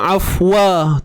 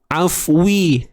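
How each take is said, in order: First: The w is followed by an a vowel. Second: The w is followed by an i vowel. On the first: "Bukan juga afwa, tu baris atas" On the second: "Bukan juga afwi, tu baris bawah"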